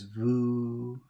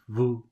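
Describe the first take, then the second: First: The vowel sounds like English 'you'. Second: The vowel is short and French-sounding. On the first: The speaker calls it wrong. "the wrong way is vous, like in English" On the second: The speaker calls it right. "the correct way is vous"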